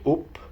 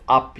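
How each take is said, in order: First: "up" said as "oop"; Northern "up". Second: Said in the usual way. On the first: Shown as a demonstration. Vlogger teaching Northern vowels, "up" said as "oop". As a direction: round the vowel of "up" to short "oo". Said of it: "you say up". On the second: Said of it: "Instead of up".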